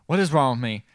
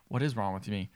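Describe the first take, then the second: First: Louder, insistent self-questioning; mildly acted freak-out, building; retold freaking out. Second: Low, subdued bewildered question; quiet start of a retold freak-out; retold self-questioning. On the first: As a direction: ask it harder, starting to panic. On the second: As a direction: ask it softly, lost and confused. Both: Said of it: "Starts freaking out".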